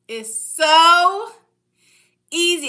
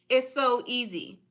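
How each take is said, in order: First: Louder with a pause before easy; drawn-out emphasis. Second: Said in the usual way. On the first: Shown as a demonstration. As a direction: hold a beat before "easy", then land it.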